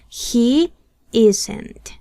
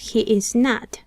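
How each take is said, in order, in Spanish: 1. "Is" y "not" se unen en una sola palabra. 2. Las tres palabras se dicen completas y por separado. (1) "pueden contraer el verbo to be con el not" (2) "aquí tenemos he is not"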